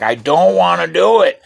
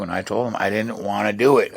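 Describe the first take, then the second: First: Put-on high, loud childish refusal; loud protest. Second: Said in the usual way. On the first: Boy refusing to shoot the cow, loud high protest. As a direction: shout that you won't do it.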